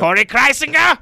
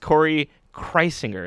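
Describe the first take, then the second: First: The name is said with a German-sounding accent. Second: The name is said in a plain English way.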